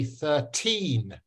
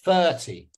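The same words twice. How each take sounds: First: Put-on thirteen with a long, stressed TEEN; thir-TEEN, second syllable drawn out. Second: Thirty with a strong THIR, light falling ty; THIR-ty, crisp teacher demo; stress on first syllable. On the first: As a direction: say "thirteen" slowly, leaning on the teen. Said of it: "I'm stressing the second syllable". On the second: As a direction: punch the first half of "thirty". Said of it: "The first syllable". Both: Shown as a demonstration.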